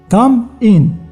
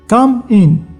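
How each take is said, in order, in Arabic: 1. الحرف المتحرك في 'come' يُنطق مثل 'ah'. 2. الحرف المتحرك في 'come' يُنطق مثل 'ah'.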